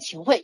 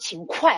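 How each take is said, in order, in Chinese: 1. 第二个音节以 h 开头。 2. 第二个音节以 g 开头。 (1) "现在呢通用的这个就是按照语言的约定俗成的话就要念秦桧" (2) "一般的古文的话就念秦桧哈，个外快"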